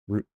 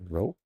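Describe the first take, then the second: First: The vowel sounds like 'oo', as in loop. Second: The vowel sounds like 'oh', as in rope. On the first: The speaker calls it right. "It is roop" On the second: The speaker calls it wrong. "It's not rope"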